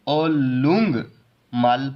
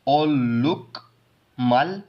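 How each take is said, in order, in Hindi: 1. दूसरा अक्षर ng ध्वनि पर खत्म होता है। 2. दूसरा अक्षर k ध्वनि पर खत्म होता है। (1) "इसको हम ओलुंग मल पढ़ेंगे" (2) "इनको हम ओलुक मल पढ़ने की बजाय"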